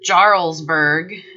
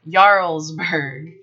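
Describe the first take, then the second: First: The word begins with an English J sound. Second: The word begins with a Y sound. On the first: The speaker calls it wrong. "So it's not Jarlsberg" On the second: The speaker calls it right. "the J in Norwegian and Swedish produces a Y sound"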